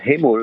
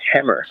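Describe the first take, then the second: First: It is said like the Korean word hamul. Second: It is said like the English word hammer. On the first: It sounds like the Korean word for seafood. The speaker calls it wrong. "not hamul like seafood" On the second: It names the tool. The speaker calls it right. "but hammer, hammer like a tool"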